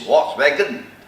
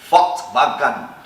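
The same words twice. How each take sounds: First: The word is pronounced the English way. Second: The word is pronounced the German way. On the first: "In English, it is" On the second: "In German, it is pronounced as"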